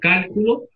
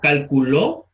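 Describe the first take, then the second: First: The stress is on the first syllable. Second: The stress is on the third syllable. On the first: "En la primera sílaba, en el cal" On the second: "En la última sílaba, ¿verdad? Dije calculó, lo puse al final"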